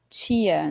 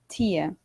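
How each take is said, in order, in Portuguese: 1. O t fica suavizado, puxando para o som de tch. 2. O t é firme, um som de t simples. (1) "aqui em São Paulo, a gente tem a mania de falar muito tia" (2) "mais parecido com alguns sotaques que nós temos no interior, ou mesmo no sul"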